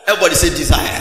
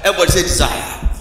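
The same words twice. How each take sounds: First: Call to repeat. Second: Fast, loud shout to the church; fast loud congregation call; louder call. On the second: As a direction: shout it quicker. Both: Real, not acted.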